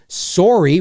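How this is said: It is said with a Canadian accent.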